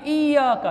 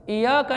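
First: इय्याका with held double y; correct pronunciation. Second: इय्याका with a single light y; wrong pronunciation. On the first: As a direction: lean on the y of इय्याका, iy-yaa-ka. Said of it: "ये के ऊपर शद पढ़ना ज़रूरी है". (इय्याका, ये पर शद) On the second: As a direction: say इय्याका as i-yaa-ka. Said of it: "इय्याका नहीं है". (इय्याका, शद छोड़ कर) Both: Shown as a demonstration.

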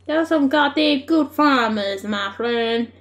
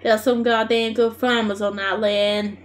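First: American twang on a farmer line; American accent. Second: Steady Australian bush delivery; Australian bush accent. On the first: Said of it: "Now I sound so American". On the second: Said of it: "proper Australian bush". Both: Acted.

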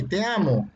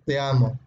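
First: "Te amo" with a touch of excitement; emotional. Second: Said in the usual way. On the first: Shown as a demonstration. Teacher repeating the emotional example, mildly excited. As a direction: put some emotion into "Te amo". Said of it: "hay una emoción ahí". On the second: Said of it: "Cambia, ¿no?".

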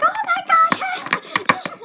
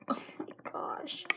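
First: Very high, loud, drawn-out squeal; mock panic. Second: Soft, slow whispered horror; hushed shock. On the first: Whole class as slime sticks in girl's hair, screeching mock panic. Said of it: "The class went to panic". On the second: Retold or imitated. Friends at the table watching the disaster, slow shocked whisper. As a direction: whisper it slowly, as if aghast.

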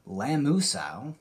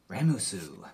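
First: "Lamusau" tried slowly, unsure, with an L; mispronounced name. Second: "Ramusu" with an R, said softer as a quick fix; corrected name. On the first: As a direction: stumble over "Lamusau" as a first guess. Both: Real, not acted.

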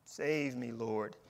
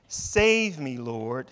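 First: Quiet plea. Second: Shouted plea. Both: Retold or imitated. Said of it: "he shouted".

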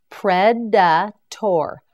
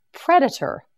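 First: Predator. split slowly into its parts; Predator. stretched to twice its length; slow syllable-by-syllable. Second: Said in the usual way. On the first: Shown as a demonstration. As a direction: spell it out in sound, very slowly. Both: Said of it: "You say it".

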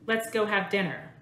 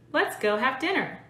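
First: Said in the usual way. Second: More inflection. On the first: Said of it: "here's the first example". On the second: Shown as a demonstration. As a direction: overdo the ups and downs of "Let's go have dinner" for practice. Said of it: "I'll say this in two different ways".

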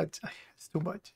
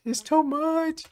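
First: Slow, much softer, trailing off; overwhelmed murmur. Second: Much higher, exasperated cry of "too much"; exasperated outburst. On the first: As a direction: mutter it slowly under your breath, worn out. Reactor overwhelmed by clip. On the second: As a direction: throw "too" up high in disbelief. Reactor repeats in disbelief. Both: Real, not acted.

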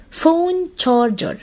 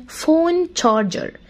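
Both takes have the same delivery.

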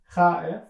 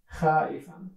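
First: Showing how afraid sounds, a little louder; scared. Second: Said in the usual way. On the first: Shown as a demonstration. Teacher demonstrates a frightened voice. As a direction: act out fear for the class. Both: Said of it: "هكذا".

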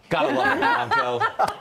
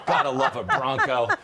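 First: Gotta love it, sung high and slow; high drawn-out delight. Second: Said in the usual way. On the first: Acted. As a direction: stretch it out in a high squeal. Host savoring the Bronco line.

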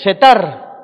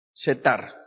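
First: Setar called out very loud; proclaiming the name. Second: Said in the usual way. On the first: Real, not acted. Preacher loudly proclaiming Setar to the congregation. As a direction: shout the name Setar to the church.

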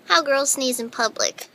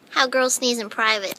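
First: Said in the usual way. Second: Loud sneeze. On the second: Shown as a demonstration.

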